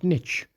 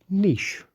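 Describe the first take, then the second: First: The word is said with an American pronunciation. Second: The word is said with a British pronunciation. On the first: The speaker calls it wrong. "not niche" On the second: The speaker calls it right. "You should pronounce the word niche"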